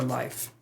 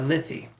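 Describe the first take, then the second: First: The word is said with one syllable. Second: The word is said with two syllables. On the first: "Some people pronounce it life" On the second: "I pronounce it Liffey"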